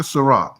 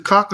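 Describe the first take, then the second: First: "Ciroc" as "suh-ROCK"; standard Ciroc. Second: "Ciroc" as "suh-KOCK"; mispronounced Ciroc. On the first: Asking which name is right, "Ciroc" said as suh-ROCK. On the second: Asking which name is right, "Ciroc" said as suh-KOCK. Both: Shown as a demonstration. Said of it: "Which one is it?".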